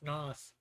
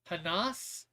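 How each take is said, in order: First: The name begins with no H sound. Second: The name begins with an audible H sound. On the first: "Maybe the H is silent. Maybe it's just Nas" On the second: "So I'm thinking that's Hanas"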